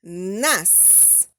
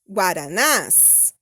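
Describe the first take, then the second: First: Guaranás said slowly, lower, stress on the final syllable nás; teacher repeating the plural slowly; slow demo of plural. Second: Guaranás said slowly with the last syllable ná stressed; teacher spelling out the plural slowly; slow demo of plural. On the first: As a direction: stretch Guaranás out, stressing the end. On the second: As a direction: draw out guaranás with the stress on the end. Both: Shown as a demonstration. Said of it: "Olha como fica".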